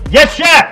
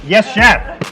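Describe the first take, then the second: First: It is said loudly, almost shouted. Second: It is said at normal, quieter volume.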